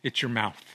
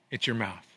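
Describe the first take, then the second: No difference in how they are said.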